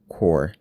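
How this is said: The vowel is a rounded, LA-style 'aw'.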